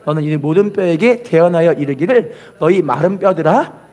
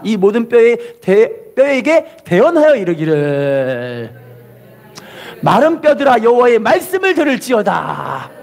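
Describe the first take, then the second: First: Said in the usual way. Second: Slow declaration with long held endings; call-and-repeat proclamation. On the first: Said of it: "계속 읽어볼게요". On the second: Shown as a demonstration. Preacher has congregation repeat Ezekiel's verse, drawn-out proclamation. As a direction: stretch 이르기를 and 들을지어다 out at the end. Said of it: "따라합시다".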